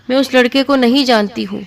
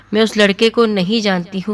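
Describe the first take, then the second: First: High, panicked "میں اس لڑکے کو نہیں جانتی ہوں" with the voice pitched up; frantic denial. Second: "میں اس لڑکے کو نہیں جانتی ہوں" said calmly at usual pitch; quiet sincere plea. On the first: Terrified wife screaming her innocence to her mother. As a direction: shriek the denial in terror. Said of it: "تو وہ چیخنے چلانے لگی". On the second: Dying wife pleading with her husband, sincere and calm. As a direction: plead your innocence softly and sincerely. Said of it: "میں آپ سے سچ کہہ رہی ہوں". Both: A narrator's reading.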